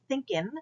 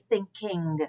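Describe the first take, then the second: First: The final g sound is dropped. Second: The final g sound is fully pronounced. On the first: The speaker calls it wrong. "we don't say" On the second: The speaker calls it right. "we say"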